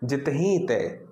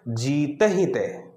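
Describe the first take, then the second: First: The first vowel is short. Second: The first vowel is long. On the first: The speaker calls it wrong. "अगर मैं इसको ऐसे पढ़ दूं ... तो ये गलत हो जाएगा" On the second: The speaker calls it right. "सही उच्चारण क्या होगा?"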